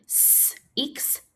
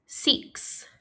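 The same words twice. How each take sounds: First: "S, X" as a held "sss", pause, then "iks"; sounded out. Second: Said in the usual way. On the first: Shown as a demonstration. Teacher inviting pupils to help, six split into s and iks. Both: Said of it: "Help me say".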